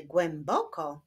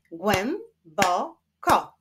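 First: Said in the usual way. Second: "Głęboko" slowly split as głę, bo, ko; three slow beats on "Głęboko"; syllable by syllable. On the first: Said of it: "wyklaszczmy sylaby w wyrazie". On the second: Shown as a demonstration. Teacher showing syllables to pupils, "Głęboko" split in three. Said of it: "wyklaszczmy sylaby w wyrazie głęboko".

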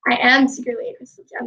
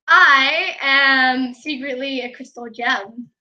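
First: Fast, run-together delivery; quick matter-of-fact confession. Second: Slow, drawn-out playful confession; slow mock reveal. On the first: Pretend. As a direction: rattle it off in one go. Playful reveal, said again quickly. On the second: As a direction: stretch out the opening "I" like a grand reveal. Playful reveal, then quick repeat.

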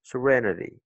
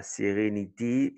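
First: "Serenity" as suh-REN-uh-dee; English "Serenity", stressed on REN; English pronunciation of serenity. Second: "sérénité" with full, even French vowels; sé-ré-ni-té, no schwa in "sérénité". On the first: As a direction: run "Serenity" together with reduced vowels. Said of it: "la prononciation change". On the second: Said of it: "C'est pas sérénité en français". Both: Shown as a demonstration.

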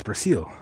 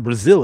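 First: "Brazil" with a hissed S for the Z; Brazilian pronunciation. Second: "Brazil" with a buzzing Z; English Z pronunciation. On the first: Streamer correcting to the Brazilian version, "Brazil" with an S. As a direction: say "Brazil" softly as Brah-SEEL. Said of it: "It's not Brazil, it's Brazil". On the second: Streamer rejecting the English version, "Brazil" with a Z. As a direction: say "Brazil" as bruh-ZIL. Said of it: "It's not spelled with a Z". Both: Shown as a demonstration.

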